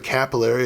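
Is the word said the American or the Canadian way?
American. It is said the American way.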